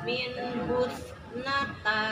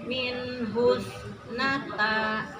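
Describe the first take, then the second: No difference in how they are said.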